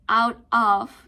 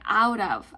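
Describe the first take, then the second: First: The two words are said separately. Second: The two words are linked together. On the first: The speaker calls it wrong. "Instead of saying out of" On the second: The speaker calls it right. "you can say out of. you have to use a linking sound"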